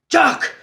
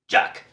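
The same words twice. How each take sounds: First: The name is yelled very loudly. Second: The name is called at normal volume.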